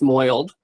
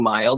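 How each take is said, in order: First: The vowel is an exaggerated New York 'oi'. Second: The word is said in a plain accent. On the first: "it's moiled, ... It's very New York" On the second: "instead of saying mild"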